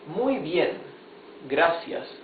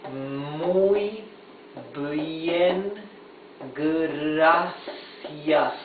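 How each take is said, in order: First: The phrase is said at a normal pace. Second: The phrase is said slowly, sound by sound.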